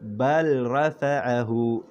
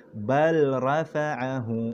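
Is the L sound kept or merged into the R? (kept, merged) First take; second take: kept; kept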